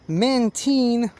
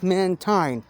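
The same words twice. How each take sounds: First: The last syllable sounds like 'teen', as in marine. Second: The last syllable sounds like 'tine', as in line. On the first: The speaker calls it right. "it is pronounced Mantine" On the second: The speaker calls it wrong. "not Mantine, as uh, some people uh, believe"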